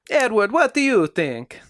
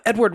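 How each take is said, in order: First: It is said in an imitated Italian accent. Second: It is said in the speaker's ordinary accent.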